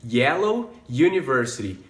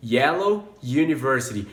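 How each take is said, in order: First: "Yellow university" with the same y start; "Yellow university" compared; matched onsets. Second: "Yellow university" again, same y start; "Yellow university" compared; y onset in both words; matched onsets repeated. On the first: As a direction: link the y sounds in "Yellow university". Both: Shown as a demonstration. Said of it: "mais ou menos o mesmo início".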